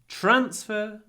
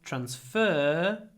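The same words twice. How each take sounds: First: The stress is on the first syllable. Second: The stress is on the second syllable. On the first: It is used as a noun. "the noun" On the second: It is used as a verb. "the verb"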